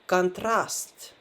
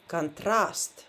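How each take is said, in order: Both takes have the same delivery.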